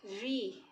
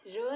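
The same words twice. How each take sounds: First: री as "ree", not "ra"; correct "ree" sound. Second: र with an open schwa, no ee; wrong "ra" sound. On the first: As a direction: say री with a long ee vowel. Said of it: "इसका उच्चारण कैसे होगा". ("री" को लंबी ई से बोलें) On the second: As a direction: say र as "ra", with a short a. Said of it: "र नहीं". ("र" को छोटे अ से बोलें) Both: Shown as a demonstration.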